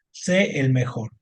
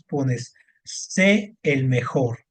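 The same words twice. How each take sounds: First: Said in the usual way. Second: Slow, stretched sé el mejor, leaning on sé; stressed sé. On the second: Shown as a demonstration. Teacher showing a student the accented sé, slowly stressed. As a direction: draw out sé so the accent is heard.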